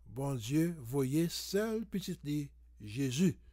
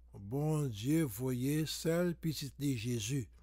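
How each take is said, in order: The two takes are said the same way.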